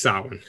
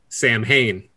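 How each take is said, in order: First: It is said sounding like 'sawin', without the m. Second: It is said following its spelling, sounding the m. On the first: This is the original pronunciation. The speaker calls it right. "It's Samhain" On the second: This is how many people mispronounce it. The speaker calls it wrong. "you'll hear a lot of people try and say Samhain"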